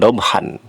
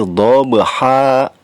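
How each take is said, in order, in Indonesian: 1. Kata ini berakhir dengan bunyi n. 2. Kata ini berakhir dengan vokal a panjang. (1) "jangan dobhan" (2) "tapi dhabha, dua harokat"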